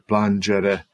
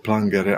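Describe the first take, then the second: First: It is pronounced the Italian way. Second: It is pronounced the classical Latin way. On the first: The speaker calls it wrong. "inkább olaszosan ejtik ki ezeket a szavakat, például" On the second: The speaker calls it right. "inkább a plangere áll közelebb az eredeti hangzáshoz"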